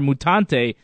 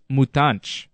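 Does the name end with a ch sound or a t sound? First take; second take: t sound; ch sound. First: The name ends with a clear t sound. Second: The name ends with a ch sound. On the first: The speaker calls it wrong. "I was calling him Cesar Mutante" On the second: The speaker calls it right. "it's actually pronounced Mutanch"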